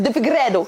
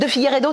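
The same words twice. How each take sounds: First: The name is pronounced with Portuguese sounds. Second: The name is pronounced with French sounds. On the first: This is how Portuguese speakers say the name. "ils disent De Figueiredo, comme ça" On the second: This is how the speaker usually says the name. "eux ils disent pas comme ça"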